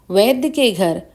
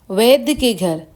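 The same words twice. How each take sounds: The two takes are said the same way.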